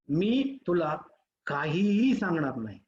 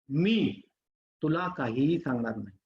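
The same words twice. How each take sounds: First: The stress is on काहीही. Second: The stress is on मी.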